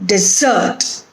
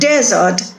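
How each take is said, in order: First: The stress is on the second syllable. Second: The stress is on the first syllable. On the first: It means to abandon or leave something. "similar word with different stress" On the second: It names a barren, sandy area of land. "When it is used as a noun, ... the stress is on the first syllable"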